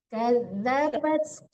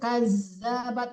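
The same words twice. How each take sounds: First: The middle consonant is a soft dh sound. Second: The middle consonant is a hard buzzing z. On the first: The speaker calls it right. "Dilembutkan membaca zal ya Bu" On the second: The speaker calls it wrong. "jangan kazabat itu zai yang Bu baca"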